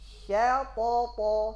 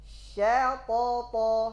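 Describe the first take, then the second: No difference in how they are said.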